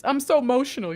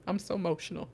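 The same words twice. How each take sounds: First: A gushing cry of feeling; emotional exclamation. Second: "I'm so emotional" repeated much softer, half to herself; softly emotional. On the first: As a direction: blurt it out, overwhelmed. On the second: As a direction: let it sink in quietly, touched. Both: Real, not acted.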